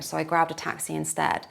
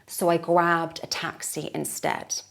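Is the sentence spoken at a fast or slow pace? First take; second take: fast; slow. First: It is spoken at full natural speed. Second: It is spoken at a slower pace. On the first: "full native speed" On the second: "We'll say it once slower"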